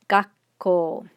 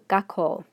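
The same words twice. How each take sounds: First: There is a brief stop before the k. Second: There is no stop before the k. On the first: "with the small tsu" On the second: "without the small stop"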